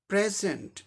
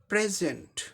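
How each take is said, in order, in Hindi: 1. Stress पहले syllable पर है। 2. स्ट्रेस पहले सिलेबल पर है।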